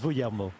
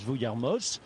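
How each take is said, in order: First: The final z sound is silent. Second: The final z sound is pronounced. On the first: The speaker calls it right. "we found a video of him saying his own name. Finally. And it's Vuillermo" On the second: The speaker calls it wrong. "despite a few of our French colleagues pronouncing uh, Alexis Vuillermo's name as Vuillermoz"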